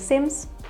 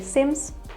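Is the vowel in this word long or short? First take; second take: short; short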